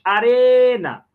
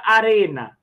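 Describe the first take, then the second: First: ARENA with a long, loud, high REEE; stress on RE. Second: Said in the usual way. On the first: Shown as a demonstration. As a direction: call out "arena", stretching the middle syllable. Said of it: "a sílaba mais forte é o re". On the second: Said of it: "E a palavra arena".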